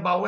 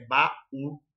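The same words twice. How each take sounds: First: Said in the usual way. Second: "baú" slowly split as ba-ú; split into syllables. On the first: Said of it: "Pois é, mas é baú". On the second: Shown as a demonstration. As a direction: say "baú" with a break before the stressed ú. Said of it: "sílabas separadas".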